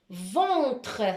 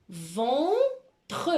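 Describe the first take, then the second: First: Ventre in one piece, first vowel held; carefully sounded Ventre, syllables linked; joined-up dictation. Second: Ventre drawn out, with a gap before tre; slow dictation of Ventre in two parts; split into syllables. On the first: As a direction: say Ventre whole, without a gap. Same dictated word said joined. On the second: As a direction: stretch ven, pause, then tre. Teacher dictates a word by syllables. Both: Shown as a demonstration.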